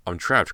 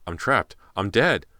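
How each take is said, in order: First: Scared, breathless thought; panicked inner voice; frightened. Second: Rising panic, louder and higher; terrified. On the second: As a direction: voice climbing into terror. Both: Acted.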